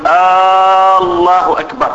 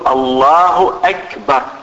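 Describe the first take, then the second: First: The opening vowel of the first word is drawn out. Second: The opening vowel of the first word is short. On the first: It sounds like a question. The speaker calls it wrong. "إدخال همزة الاستفهام على الله" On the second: It is a plain statement. The speaker calls it right. "تقول الله أكبر"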